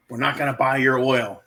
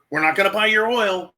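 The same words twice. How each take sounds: First: Said in the usual way. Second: Higher, hammed-up scolding of Putin; mock scolding. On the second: Mocking the West's empty threat to Putin, higher pitch. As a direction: scold like a toothless parent, higher. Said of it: "We're saying".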